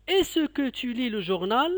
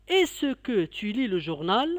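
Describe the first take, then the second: First: "Est-ce que tu lis le journal?" with the pitch rising to journal; rising question. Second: "Est-ce que tu lis le journal?" gently rising at journal; rising question. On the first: Teacher modelling est-ce que question, rising tune. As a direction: ask it, ending up high. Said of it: "est montante". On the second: Teacher repeating for pupils, mild rising tune. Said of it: "Je répète". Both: Shown as a demonstration.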